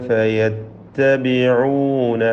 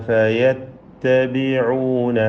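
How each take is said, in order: The two takes are said the same way.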